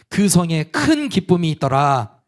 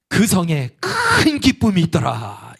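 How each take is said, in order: First: It is read flatly, like reading a book. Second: It is said with heartfelt longing.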